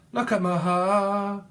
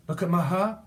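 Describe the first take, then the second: First: Crooned. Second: Said in the usual way. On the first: Pretend. Sings it, drawn out.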